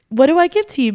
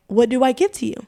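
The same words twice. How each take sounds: First: Higher and louder on the repeat; the plea breaks through the second time; tearful repeat. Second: Said in the usual way. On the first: Real, not acted. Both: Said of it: "getting emotional".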